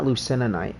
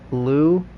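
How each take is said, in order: First: The word has an extra syllable in the middle. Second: The word has no extra middle syllable. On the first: The speaker calls it wrong. "it's not Lucenonite" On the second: The speaker calls it right. "We're calling it Lucenite"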